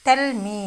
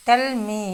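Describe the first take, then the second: No difference in how they are said.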